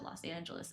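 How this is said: The name is pronounced with English sounds. This is how everyone actually says it. "Everyone calls it"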